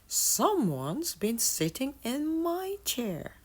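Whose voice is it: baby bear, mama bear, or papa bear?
mama bear. It is said in mama bear's voice.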